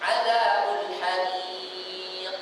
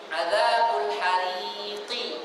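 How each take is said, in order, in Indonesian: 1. Kata terakhir berakhir jelas pada konsonan. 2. Kata terakhir berakhir dengan tambahan vokal i.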